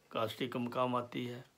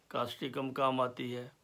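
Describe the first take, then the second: No difference in how they are said.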